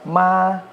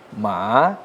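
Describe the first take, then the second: First: The pitch stays high and level. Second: The pitch dips low, then rises. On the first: "nada satu"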